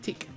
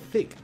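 First: The name begins with a plain 't' sound. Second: The name begins with a 'th' sound. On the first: The speaker calls it right. "No, it's a Tick" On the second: The speaker calls it wrong. "It's not Thick. Thick will be if there is an H"

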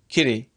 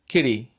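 First: The middle consonant is a quick voiced tap. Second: The middle consonant is a quick voiced tap.

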